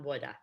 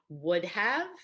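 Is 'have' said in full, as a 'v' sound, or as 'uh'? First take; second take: uh; full. First: 'Have' is reduced to an 'uh' sound. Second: Both words are said in full. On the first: The speaker calls it wrong. "not woulda" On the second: The speaker calls it right. "I would have is fine"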